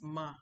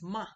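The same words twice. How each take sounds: First: The syllable is said flat, almost with no tone. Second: The syllable is said with the third tone. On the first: It is a particle at the end of a sentence. "This Ma is a flat, in fact, it's almost like no tone" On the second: It means scolding someone for doing wrong. "Number three is ma"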